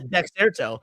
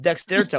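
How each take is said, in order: First: No t sound comes before 'erto'. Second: An extra t sound comes before 'erto'. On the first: The speaker calls it right. "It's Dexerto. You're right" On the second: The speaker calls it wrong. "I thought there was an extra T"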